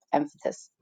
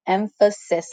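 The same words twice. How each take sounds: First: "emphasis" mumbled and swallowed, the middle slurred to "emfəəs"; fumbled word. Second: "Emphasis" said slowly and clearly, every syllable em-pha-sis; careful retry. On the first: Real, not acted. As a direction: quietly trip over "emphasis". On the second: Shown as a demonstration. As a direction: spell out "Emphasis" slowly and deliberately. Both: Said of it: "Hmm, I can't say that word".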